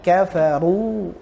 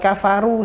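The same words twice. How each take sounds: First: The r sound is pronounced heavy and thick. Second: The r sound is pronounced light and thin. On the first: The speaker calls it right. "tapi kafaru. Nah, tebal kan" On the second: The speaker calls it wrong. "Bukan kafaru saja"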